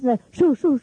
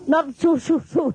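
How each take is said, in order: First: Quick sharp shoo, shoo; shooing demo. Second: Shooing demo. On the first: Demo of shooing cameramen off while in an elegant dress. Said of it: "the video catch me in this kind of". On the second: Showing the guests how she shooed, laughing. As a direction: wave them off again, half laughing. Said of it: "like this". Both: Shown as a demonstration.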